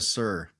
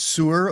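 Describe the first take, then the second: First: It is said with one syllable, like 'sir'. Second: It is said with two syllables, like 'sewer'. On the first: "It's a sir" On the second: "Is that a s- sewer or a sir?"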